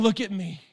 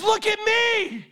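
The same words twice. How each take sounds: First: Preacher showing what Peter didn't mean; softer aside. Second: High, slow, ringing; commanding call. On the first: Shown as a demonstration. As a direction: say it down, as the wrong reading. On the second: Acted. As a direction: demand attention. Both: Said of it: "He wasn't saying".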